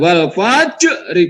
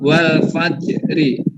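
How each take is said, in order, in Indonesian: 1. Bunyi j memantul kuat. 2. Bunyi j hanya memantul ringan. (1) "Bukan wal fajri" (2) "dipantulkan tapi tipis saja mantulnya"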